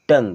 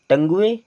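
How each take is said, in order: First: The word ends on 'ng' with no vowel. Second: The u is voiced as an extra final vowel. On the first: The speaker calls it right. "अब इससे हम केवल क्या पढ़ेंगे?" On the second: The speaker calls it wrong. "नहीं, यू होता है यहाँ पर साइलेंट।"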